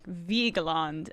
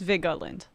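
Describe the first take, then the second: First: The middle E is sounded, giving three syllables. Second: The middle E is skipped, giving two syllables. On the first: The speaker calls it right. "relatives that say it like Vigeland, and apparently that's correct" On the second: The speaker calls it wrong. "I can breeze through that E"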